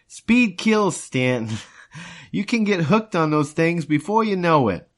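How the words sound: It is read in a put-on character voice. The speaker calls it right. "Reuben voice"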